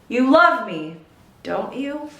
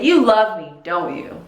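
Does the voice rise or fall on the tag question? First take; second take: rise; fall. First: The voice rises at the end of the tag. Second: The voice falls at the end of the tag.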